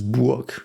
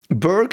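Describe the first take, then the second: First: The name has a German-style vowel. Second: The name has an English-style vowel. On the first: The speaker calls it right. "but in German this is Burg" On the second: The speaker calls it wrong. "Berg is not how you pronounce this"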